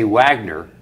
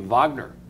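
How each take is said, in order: First: The name starts with a W sound. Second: The name starts with a V sound. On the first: The speaker calls it wrong. "you don't say Wagner" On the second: The speaker calls it right. "You say Wagner"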